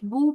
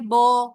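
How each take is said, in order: First: The vowel is a clear, pure u sound. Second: The vowel drifts toward an o sound. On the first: The speaker calls it right. "बू बोलने की बजाय" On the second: The speaker calls it wrong. "ये जेर और पेश के दरमियान का एक अंदाज हो जाता है, जो कि गलत है"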